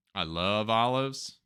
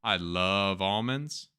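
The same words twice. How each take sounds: First: Slow, overly earnest declaration; mock sincere. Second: Slow, genuinely fond; really mean it this time; sincere. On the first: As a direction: fake enthusiasm for olives. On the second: Real, not acted. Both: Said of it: "That's not true".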